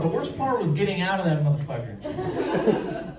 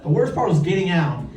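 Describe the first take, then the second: First: The worst part said slow and hushed for the punchline; slower, drawn-out emphasis. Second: Said in the usual way. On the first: Shown as a demonstration. Comedian to audience, slowly dragging out the worst part. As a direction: drag out the worst part, softer.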